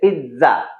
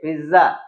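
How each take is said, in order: First: The middle consonant is a ts sound. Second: The middle consonant is a plain z sound. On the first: The speaker calls it right. "बोला जाएगा ऐसे P I टी जेड A" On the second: The speaker calls it wrong. "लिखा जाता है इसे P I जेड जेड A"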